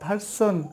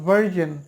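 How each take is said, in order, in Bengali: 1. মধ্যের ব্যঞ্জনটি একটি hissing s ধ্বনি। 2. মধ্যের ব্যঞ্জনটি একটি গুনগুনে zh ধ্বনি। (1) "প্রথমে যে ভুলটা করি ভার্সন" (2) "S I O N reason হবে ভার্জন"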